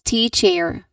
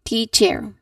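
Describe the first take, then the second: Both takes have the same delivery.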